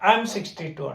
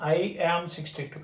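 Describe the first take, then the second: First: I am is shortened into one syllable. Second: I am is said as two full words. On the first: This is how it is said in speech. "చెప్పేటప్పుడు spoken ఫామ్కి వచ్చేసరికి" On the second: This is how it is read aloud. "చదివేటప్పుడు అలా చదువుతాం"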